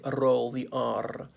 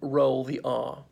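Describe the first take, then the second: First: The r is rolled with a trill. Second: The r is said plainly without a trill. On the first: "or should I say roll the r. If we do so, it's only because we want to be very funny" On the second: "we generally don't roll the r"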